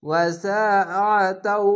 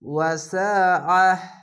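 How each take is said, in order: First: The word runs on and ends with a t sound. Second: The word stops and ends with an h sound. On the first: The reciter joins this word to the next. "যদি না থামেন মিলিয়ে পড়লে" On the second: The reciter pauses after this word. "এভাবে থেমে গেলাম"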